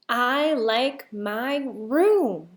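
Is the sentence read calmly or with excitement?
calmly. It is read in a plain, calm way. The speaker calls it wrong.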